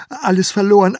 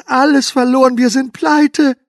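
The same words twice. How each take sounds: First: Loud, higher desperate wail; panicked cry. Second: Very loud, much higher, slowing to pleite; hysterical wail. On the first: Herr K. crying to his wife in loud panic. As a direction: cry out in ruin. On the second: Herr K. screaming to his wife, very high and loud. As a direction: scream it out in full despair. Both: Acted.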